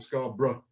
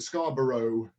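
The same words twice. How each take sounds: First: It is said the local English way. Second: It is said the way the song says it. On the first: This is how local people say the name. "over here it's pronounced Scarborough or Scarborough, like that" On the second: This is how the famous song says the name. "as [name] sings it"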